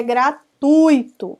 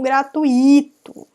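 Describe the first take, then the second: First: First gratuito with TUI punched as one syllable; stress on TUI. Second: Second gratuito with u and i split, beat on I; stress on I. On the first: Teacher giving a parallel case, gratuito stressed on TUI. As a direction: say gratuito as gra-TÚI-to. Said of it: "da mesma forma que é gratuito". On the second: Teacher showing the mistake, gratuito stressed on I. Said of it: "e não gratuito". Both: Shown as a demonstration.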